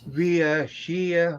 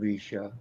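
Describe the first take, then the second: First: The name is stretched into more syllables. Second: The name is said with two syllables. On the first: The speaker calls it wrong. "I was uh, Ria Shia or something like" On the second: The speaker calls it right. "I didn't know how to pronounce your name"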